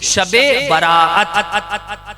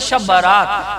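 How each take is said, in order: First: The last word has two vowels split by a break. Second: The last word has one long 'aa' vowel. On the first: It is taken as a night of release. The speaker calls it right. "सही है" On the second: It is taken as a wedding procession night. The speaker calls it wrong. "वो समझते थे शब बारात, यानी कोई बारात वाली रात है"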